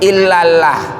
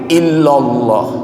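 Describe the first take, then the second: First: The L sound is thin and light. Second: The L sound is thick and heavy. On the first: The speaker calls it wrong. "kalau dibaca tarkik, illallah itu tarkik" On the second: The speaker calls it right. "Kalau tafhim"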